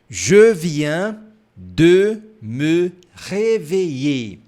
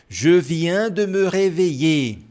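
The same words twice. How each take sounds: First: It is said more slowly. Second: It is said fast.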